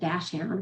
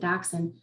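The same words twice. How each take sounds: First: The first part sounds like 'dash'. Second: The first part sounds like 'docks'. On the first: It matches the wordplay in the book title. "Some people pronounce it Dachshund, which makes more sense with the title" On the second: It is how the speaker's family says it. "we've always pronounced it Dachshund"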